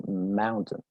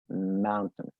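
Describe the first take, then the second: First: The second syllable is reduced, almost gone. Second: The same.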